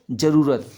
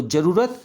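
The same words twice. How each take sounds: First: जरूरत with long roo, falling. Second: जरूरत with short ru, rising. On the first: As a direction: stretch the roo of जरूरत, ending down. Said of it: "बड़े ऊ की". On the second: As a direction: clip the ru of जरूरत, ending up. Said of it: "तो याद रखना आपको". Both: Shown as a demonstration.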